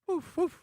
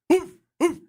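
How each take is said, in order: First: The bark is said softly. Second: The bark is said loudly.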